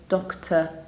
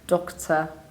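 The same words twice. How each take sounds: No difference in how they are said.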